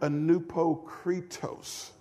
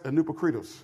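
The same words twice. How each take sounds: First: The word is said at a normal, unhurried speed. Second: The word is said quickly, syllables run together. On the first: "Can we all say it with me?" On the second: "Can we say it real fast?"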